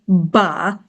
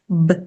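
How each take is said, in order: First: A vowel sound follows the consonant. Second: The consonant is said alone with no vowel. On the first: The speaker calls it wrong. "the letter B does not say ba" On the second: The speaker calls it right. "it says b"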